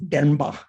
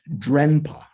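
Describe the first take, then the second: First: No separate r is sounded after the d. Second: The r after the d is clearly sounded. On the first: The speaker calls it right. "that R kind of modifies the sound of the D" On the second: The speaker calls it wrong. "it looks like it should be pronounced Drenpa"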